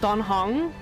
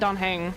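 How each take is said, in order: First: The second syllable rhymes with 'long'. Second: The second syllable rhymes with 'hang'. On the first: The speaker calls it right. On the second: The speaker calls it wrong.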